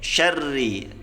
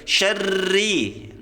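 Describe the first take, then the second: First: The r is trilled only two or three times. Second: The r is trilled many times, too long. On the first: The speaker calls it right. "cukup sedikit saja" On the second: The speaker calls it wrong. "tidak boleh syarri"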